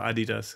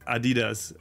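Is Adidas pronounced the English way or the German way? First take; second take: German; English. First: It is pronounced the German way. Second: It is pronounced the English way.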